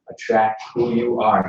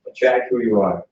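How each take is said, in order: First: Attract WHO you are, with who slow and drawn out; stress on who. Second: ATTRACT who you are, with attract punched; stress on attract. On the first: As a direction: lean hard on the word who. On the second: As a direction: hit the word attract. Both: Shown as a demonstration.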